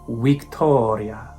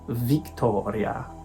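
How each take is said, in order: First: The word begins with a W sound. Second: The word begins with a V sound. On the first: The speaker calls it right. "there's no V sound. It's a W, like the English letter W" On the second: The speaker calls it wrong.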